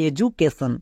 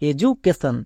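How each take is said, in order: The two takes are said the same way.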